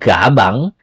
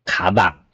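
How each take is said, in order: First: The word begins with a G sound. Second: The word begins with a K sound. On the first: The speaker calls it wrong. "Not gabang" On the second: The speaker calls it right. "it's kabang"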